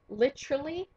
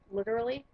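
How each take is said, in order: First: It is pronounced with a British accent. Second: It is pronounced with an American accent. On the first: It copies how English people talk. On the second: It is the speaker's usual way of talking.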